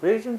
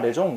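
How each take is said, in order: First: The word ends with a 'zun' sound. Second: The word ends with a 'zong' sound. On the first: The listener could not understand it. The speaker calls it wrong. "라고 했더니 못 알아듣더라고" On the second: The listener understood it. The speaker calls it right. "그러더라고"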